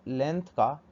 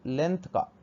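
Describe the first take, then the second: No difference in how they are said.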